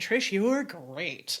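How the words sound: It is said sarcastically.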